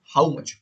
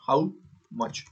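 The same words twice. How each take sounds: First: Said in the usual way. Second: "how" then a pause, then "much", each word said alone; spaced out word by word. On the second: Shown as a demonstration. Teacher spelling out English words for students, slow and spaced.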